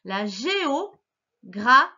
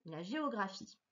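First: Géographie read slowly, syllable by syllable; syllabified reading. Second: Said in the usual way. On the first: Shown as a demonstration. Teacher sounding out géographie for a young reader. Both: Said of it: "Je vais les lire avec toi".

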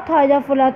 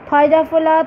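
The two takes are said the same way.

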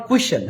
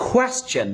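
First: কুয়েশ্চেন squashed to "ku-shen"; wrong "kushen". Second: কোয়েশ্চেন with a clear "kwe" onset; KWES-chen. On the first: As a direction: say কুয়েশ্চেন with "ku" in place of "kwe". (কুয়েশ্চেন, শুরুতে "কু" দিয়ে ভুল উচ্চারণ) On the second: (কোয়েশ্চেন, শুরুতে "কোয়ে" স্পষ্ট করে) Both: Shown as a demonstration. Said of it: "not কুয়েশ্চেন".

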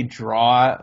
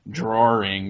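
First: "draw" as an open "draw", no R sound, drawn out; slow, R-less "draw". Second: "drawing" said with an R inside, draw-r-ing; intrusive R. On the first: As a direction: say "draw" Rhode Island style, no R. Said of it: "with no R". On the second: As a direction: put an R into "drawing". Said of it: "you say drawing?". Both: Shown as a demonstration.

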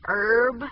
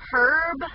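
First: "herb" with the H dropped; silent H herb. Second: "Herb" with the H sounded. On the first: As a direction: say "herb" as "erb", no H. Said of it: "I think it's herb". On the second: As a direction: say "Herb" with a clear H. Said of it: "Herb or herb". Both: Shown as a demonstration.

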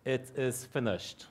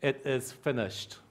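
No difference in how they are said.

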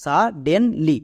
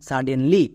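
First: সা ডেন লি in three separate beats; demonstrating each syllable on its own. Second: Said in the usual way. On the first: Shown as a demonstration. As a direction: break the word into সা, ডেন, লি with small gaps. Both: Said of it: "এবার একসঙ্গে উচ্চারণ করো".

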